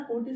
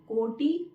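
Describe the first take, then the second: First: कोटि with a short, light final i; correct pronunciation. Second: कोटि slowly with a long final "tee"; wrong pronunciation. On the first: Teacher shows correct word, short-ended कोटि. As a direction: keep the ending of कोटि brief. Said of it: "ये वाला कोटि सही है". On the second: Teacher shows the error, drawn long ee in कोटि. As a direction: drag out the end of कोटि. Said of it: "कोटि गलत है". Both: Shown as a demonstration.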